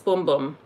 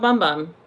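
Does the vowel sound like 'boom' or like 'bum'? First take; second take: boom; bum. First: The vowel is long, as in 'boom'. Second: The vowel is short, as in 'bum'. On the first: The speaker calls it right. "It's boom boom" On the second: The speaker calls it wrong. "It's not bum bum"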